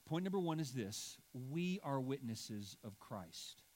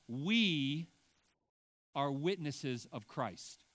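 First: Said in the usual way. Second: "we" punched loud and held, rest slow; slow sermon line with "we" hit loud; stress on we. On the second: Shown as a demonstration. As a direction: lean hard on "we", then ease off. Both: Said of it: "the emphasis on the first point is the we".

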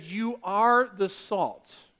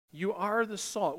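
First: Slow, every word weighted, stress on "are"; emphatic. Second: Quieter, slower echo, still leaning on "are"; softer emphatic. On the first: Preacher to congregation, stressing "are" slowly and firmly. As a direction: drive home "You are the salt", leaning on "are". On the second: Preacher to congregation, echoing quietly with stress on "are". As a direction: repeat "You are the salt" gently, weight on "are". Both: Real, not acted. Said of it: "it is an emphatic".

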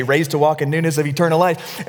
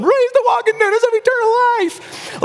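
First: Said in the usual way. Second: Very high, strained scream; mock a weepy yell over applause. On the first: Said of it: "so he can hear me say". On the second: Father baptizing his son over applause, weepy scream. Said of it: "screaming in the microphone".

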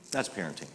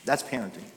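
First: "That's parenting." echoed much softer; softer repeat. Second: Said in the usual way. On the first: Shown as a demonstration. Pastor to congregation on Derek Redmond's dad, soft echo. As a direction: let "That's parenting." fall quiet the second time.

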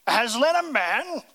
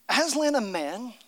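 First: Firm, louder, indignant echo of the question; stern Mister Beaver. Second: Lucy asking. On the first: Beaver correcting the nervous children, sternly. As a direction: scoff at the idea sternly. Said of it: "said Mister Beaver sternly". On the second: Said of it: "asked Lucy". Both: Acted.

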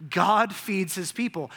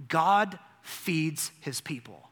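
First: A touch louder, still slow; firmer repeat. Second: Slow and weighty, letting it land; slow emphasis. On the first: Preacher repeating the line, slower and firmer. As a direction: repeat it with more force. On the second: Preacher to congregation, slow and weighty. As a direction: say it slowly, each word set down. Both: Shown as a demonstration. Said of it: "You know what the story of Genesis says?".

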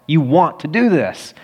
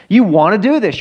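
First: Said in the usual way. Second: Repeated louder and higher, pressing "do"; emphatic repeat. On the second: Shown as a demonstration. Pastor urging would-be elders, louder and higher on "do". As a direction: drive it home the second time, punching "do".

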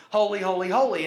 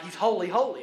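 First: "holy, holy, holy" each one louder, the last rising highest; triple holy building. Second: "holy, holy" said twice with steady emphasis; demonstrating a superlative with two "holy"s; double holy. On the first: Preacher showing the congregation a super superlative, building "holy" three times. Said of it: "A super superlative is". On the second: Preacher teaching the congregation a superlative, stressing "holy" twice. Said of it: "So a superlative would be like". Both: Shown as a demonstration.

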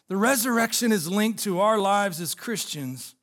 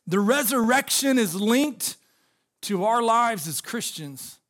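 First: Said in the usual way. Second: Pauses between phrases, stress on resurrection; deliberate preacher emphasis with pauses; slow emphatic first take. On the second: Shown as a demonstration. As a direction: lay it out phrase by phrase, slowing on the end.

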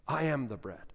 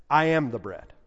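First: I am the bread, dropped much softer; an echoing, hushed I am the bread. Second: Said in the usual way. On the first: Shown as a demonstration. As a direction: let the repeat fall quiet. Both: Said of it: "repeats the claim".

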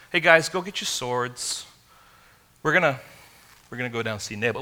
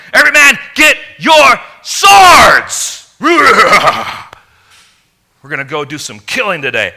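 First: Easygoing, ordinary call to the men; casual invitation. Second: Furious war shout. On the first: Shown as a demonstration. How David did not speak to his men, casual and mild. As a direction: toss it off like a friendly errand. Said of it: "it wasn't like". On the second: Retold or imitated. David ordering his men to arm, furious shout. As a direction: roar it out, blood boiling for revenge. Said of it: "It was like".

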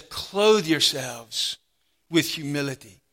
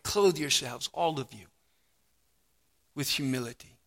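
First: "clothe yourselves with humility" stretched out slowly, each word weighted; slow emphatic reading. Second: Soft repeat. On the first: Preacher lingering over the command to the congregation, slow and weighty. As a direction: let "clothe" land slowly and heavily. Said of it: "All of you," he says". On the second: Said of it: "same verse repeated softly". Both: Shown as a demonstration.

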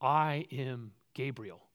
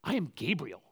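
First: Slow, plain and simple; quiet, unhurried self-introduction; said simply. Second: I am Gabriel as a firm rebuke; lightly voiced offended Gabriel; a hint of an indignant angel. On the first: Acted. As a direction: state it calmly and slowly. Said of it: "The angel says simply". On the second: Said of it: "Gabriel goes".

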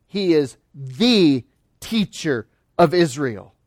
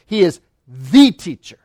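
First: "the" stretched and weighted, slow overall; slow stress on THE. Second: "the" leaned on firmly, falling at the end; stress on THE. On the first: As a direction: linger on "the", slowly, as the one true teacher. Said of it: "It is a definitive article". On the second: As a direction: press on "the" to make it definitive. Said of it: "but it is emphatic". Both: Shown as a demonstration.

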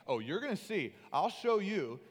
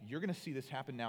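First: Loud, rising mock condescension; condescending. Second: Said in the usual way. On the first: God mocked up as talking down to Moses, condescending. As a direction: put on a talking-down tone, louder and higher. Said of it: "saying that in a condescending tone". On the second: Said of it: "not even saying that in a condescending tone".

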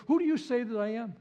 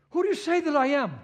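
First: Said in the usual way. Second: Emphatic challenge. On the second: Shown as a demonstration. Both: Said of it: "Always saying".

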